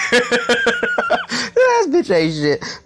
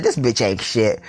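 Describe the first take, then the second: First: "this bitch ain't shit" wheezed out high and slow through laughter; "this bitch ain't shit" stretched out, high-pitched, mid-laugh. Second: Said in the usual way. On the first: Real, not acted. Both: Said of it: "I fell out".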